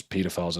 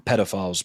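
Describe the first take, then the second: First: Pedophiles said British style, first syllable as PEE; British pronunciation. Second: Said in the usual way. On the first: Shown as a demonstration. British speaker correcting the word, pedophiles with PEE. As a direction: pedophiles with a long PEE-do start. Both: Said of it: "as we'd call them".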